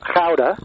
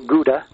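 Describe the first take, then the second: First: Gouda is said with a Dutch pronunciation. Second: Gouda is said with an American pronunciation. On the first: "invented in a town called Gouda" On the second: "which Americans call Gouda"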